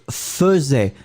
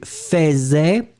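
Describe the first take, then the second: First: "faisait" said feu-zè, first vowel a schwa, drawn out; correct pronunciation. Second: "faisait" said as written, fè-zè, drawn out; spelling pronunciation. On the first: Teacher showing students how it is spoken, "faisait" slowly as feu-zè. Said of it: "on prononce faisait". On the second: Teacher showing the odd spelling to students, "faisait" slowly as fè-zè. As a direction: say "faisait" with an open è in the first syllable, slowly. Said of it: "on écrit faisait". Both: Shown as a demonstration.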